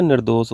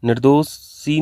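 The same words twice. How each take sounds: First: निर्दोष ending on sh with no vowel after; teacher gives the right form निर्दोष, said nir-dosh; correct form shown. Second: निर्दोषी ending in a long ee; teacher shows the wrong form निर्दोषी, said nir-do-shee; wrong form shown. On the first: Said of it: "निर्दोष होता है". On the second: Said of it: "निर्दोषी नहीं होता है". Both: Shown as a demonstration.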